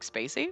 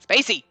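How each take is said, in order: First: It rises at the end, sounding unsure. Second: It falls at the end, sounding loud and excited.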